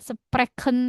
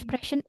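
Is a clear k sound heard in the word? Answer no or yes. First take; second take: yes; no. First: The ch is pronounced as a clear k sound. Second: The ch is a soft ish sound, not k. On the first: The speaker calls it wrong. "nggak sprechen" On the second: The speaker calls it right. "sama-sama kayak ish"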